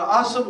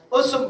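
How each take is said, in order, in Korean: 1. 첫 모음은 'ah'로 발음해요. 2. 첫 모음은 'uh'로 발음해요. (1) "틀렸다 할 수 있겠습니까?" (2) "어예요"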